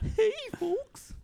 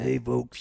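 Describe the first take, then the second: First: The voice is high and squeaky, like a chipmunk. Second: The voice is rough and raspy, like a smoker. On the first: The speaker sounded young years ago. "I'm like a chipmunk or something" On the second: The speaker sounds older now. "Like a chipmunk who smokes"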